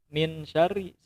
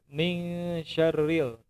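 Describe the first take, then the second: First: The n is short with no nasal hum. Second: The n is held with a nasal hum. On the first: The speaker calls it wrong. "ada di antara adik-adik itu yang bacanya itu min" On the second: The speaker calls it right. "Seharusnya itu dengung"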